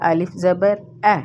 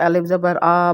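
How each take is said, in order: First: It is read slowly in a normal Arabic accent. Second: It is read in the old local accent. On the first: The speaker calls it right. "अरबी के normal लहजे में पढ़ना है और बिल्कुल ही slow लहजे में" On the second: The speaker calls it wrong. "इस लहजे में पढ़ते थे"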